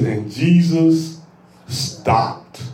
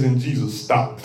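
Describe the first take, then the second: First: And Jesus, then a long pause, then "stopped." dropped low and near whisper; slow build, hushed "stopped." after a pause; dramatic pause on stopped. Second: Low, soft "stopped."; quietly spoken verse line; hushed. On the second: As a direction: drop the voice on "And Jesus stopped.". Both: Shown as a demonstration. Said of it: "That one thing can preach all by itself".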